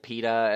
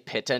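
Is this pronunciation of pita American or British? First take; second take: American; British. First: It is pronounced the American way. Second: It is pronounced the British way. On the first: This is how the speaker used to say it. "instead of pita" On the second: This is how the speaker says it now. "I say pita now"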